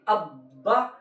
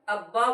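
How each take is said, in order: First: The doubled consonant is pressed hard and held. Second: The doubled consonant is said softly, without extra force. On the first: The speaker calls it right. "थोड़ी-सी सख्ती लाना है" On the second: The speaker calls it wrong. "अब्बा बोले तो रॉन्ग है"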